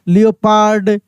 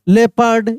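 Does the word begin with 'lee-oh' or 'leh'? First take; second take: lee-oh; leh. First: It starts with 'lee-oh' and ends 'pard'. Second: It starts with 'leh' and ends 'perd'. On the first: The speaker calls it wrong. "ऐसे हम लोग बोल देते हैं" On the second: The speaker calls it right. "Actual में pronunciation यही होता है"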